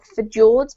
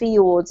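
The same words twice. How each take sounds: First: The j is sounded like an English J. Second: The j is sounded like an English Y. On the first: The speaker calls it wrong. "not fjords" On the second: The speaker calls it right. "as if it were a Y"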